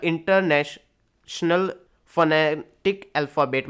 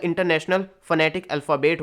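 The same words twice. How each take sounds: First: "international phonetic" drawn out piece by piece; slow, broken-up reading. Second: Said in the usual way. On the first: Shown as a demonstration. Teacher expanding an abbreviation, slow and segmented. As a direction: slowly break up each long word, then carry on. Teacher spells out IPA slowly.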